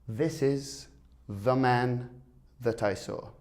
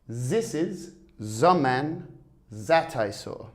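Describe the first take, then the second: First: The 'th' sounds use the tongue between teeth. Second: The 'th' sounds are said like 'z'. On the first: The speaker calls it right. "The correct pronunciation is, ... with your tongue just between your teeth there" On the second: The speaker calls it wrong. "many French speakers might say, ... But that's not correct"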